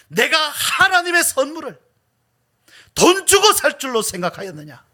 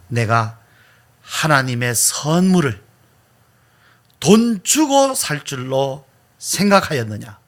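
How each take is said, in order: First: It is said with strong, furious force. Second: It is said with restrained, moderate force. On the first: The speaker calls it right. "아주 분노하면서" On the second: The speaker calls it wrong. "이것보다 더 강하게 말을 잘 못하겠어요"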